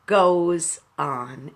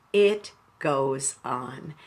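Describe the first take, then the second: First: Said in the usual way. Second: "It goes on" slowed right down and softened; quiet, unhurried echo of "It goes on"; slow soft repeat. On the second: Shown as a demonstration. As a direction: repeat it gently, letting it land. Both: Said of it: "that's the thought I want to leave you with".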